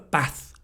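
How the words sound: It is said in a Manchester accent. "In Manchester"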